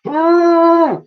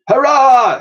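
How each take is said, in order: First: Very high trumpeting hoot; mammoth hoot. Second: High loud cheer; shout. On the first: Woolley joining the crew's cheer, trumpeting hoot. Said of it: "hooted Woolley". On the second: Crew on board the Victory cheering, loud shout. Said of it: "shouted everyone on". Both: Acted.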